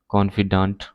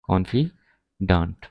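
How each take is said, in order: First: Said in the usual way. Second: "confi, daant" with a clear gap; slow syllable breakdown. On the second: Shown as a demonstration. Teacher gives learners the male form, slowly broken up. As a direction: split confidant slowly before its last syllable.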